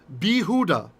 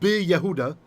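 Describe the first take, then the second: First: No 'y' consonant is heard after the 'b'. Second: A 'y' consonant is heard after the 'b'. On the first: The speaker calls it right. "In Judah, Bi Huda" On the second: The speaker calls it wrong. "not Bi Yehuda"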